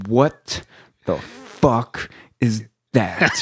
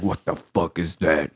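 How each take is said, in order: First: Slow, spaced-out disbelief; not yelling, imitated. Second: Low, quieter croaked mimicry; hoarse frog voice. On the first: Instructor pointing at long dyed hair, slow unyelled disbelief. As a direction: draw out each word without shouting. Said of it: "he's not even yelling". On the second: Hoarse instructor pointing at recruit's hair, frog voice. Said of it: "got that frog voice".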